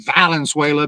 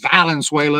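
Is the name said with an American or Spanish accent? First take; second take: American; American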